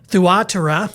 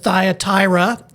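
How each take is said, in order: First: The name is pronounced the original Greek way. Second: The name is pronounced the usual English way. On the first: The speaker calls it right. "In Greek, it's actually Thuatira" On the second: The speaker calls it wrong. "as we would say in a lot of English parlance"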